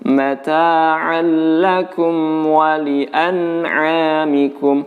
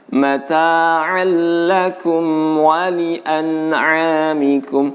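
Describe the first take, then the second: The two takes are said the same way.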